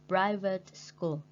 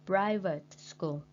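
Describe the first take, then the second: No difference in how they are said.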